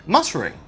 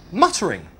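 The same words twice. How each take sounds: The two takes are said the same way.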